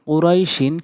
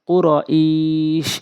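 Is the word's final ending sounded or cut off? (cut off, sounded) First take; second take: sounded; cut off. First: The word ends with its full final ending sounded. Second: The word stops on its final consonant. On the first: "কুরাই শিন দুই জেরে শিন" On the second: "ওয়াকফ করলে কুর ইস"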